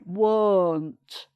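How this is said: A broad, dark northern English O vowel. "in the northern accent... it's much broader"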